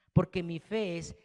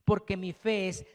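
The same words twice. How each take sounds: The two takes are said the same way.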